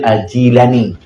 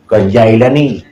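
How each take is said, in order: First: The first syllable has an 'ee' vowel. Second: The first syllable has an 'eye' vowel. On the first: The speaker calls it right. "Padahal Jilan" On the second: The speaker calls it wrong. "Yang kaya minta salah kenan"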